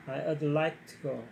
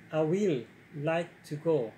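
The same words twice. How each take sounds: First: "I would like to go" slow, would reduced, like stressed; softened would version. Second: "I will like to go" said slowly with will stretched and stressed; will version, too strong. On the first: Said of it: "낮추다 보니까 would로 하는 거예요". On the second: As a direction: lean hard on "will" in a drawn-out demo. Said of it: "이거보다 조금 더 낮춰야 돼요". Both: Shown as a demonstration.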